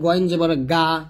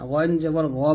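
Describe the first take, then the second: First: The final vowel is a plain open 'a' sound. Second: The final vowel is a heavier, rounded 'o'-like sound. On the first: The speaker calls it wrong. "এরকম করা যাবে না" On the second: The speaker calls it right. "বলতে হবে"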